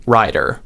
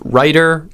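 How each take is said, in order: First: "rider" with an open, lower first vowel. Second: "writer" with a raised, higher first vowel. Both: Shown as a demonstration. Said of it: "you can say that to yourself".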